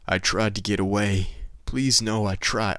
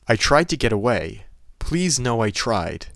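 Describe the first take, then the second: First: It is said in an imitation of Rick's voice. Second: It is said in the speaker's normal voice.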